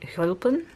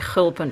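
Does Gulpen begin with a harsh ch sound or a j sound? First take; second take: j sound; harsh ch. First: The first sound is a soft j-like sound. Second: The first sound is a harsh, rasping ch. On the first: This is how locals say it. The speaker calls it right. "they say j" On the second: This is not how locals say it. The speaker calls it wrong. "they don't say a harsh ch"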